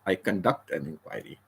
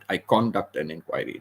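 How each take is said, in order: First: The stress is on the second syllable. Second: The stress is on the first syllable. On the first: The speaker calls it right. "the emphasis is on the second syllable" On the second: The speaker calls it wrong. "That's wrong"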